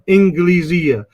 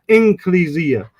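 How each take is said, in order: First: The consonant after n is a hard g. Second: The consonant after n is a k. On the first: "Some people will pronounce the Jim like Misr" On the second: "Some people put it with a kaf"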